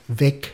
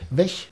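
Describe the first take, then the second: First: It is said with standard German pronunciation. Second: It is said with Central German pronunciation.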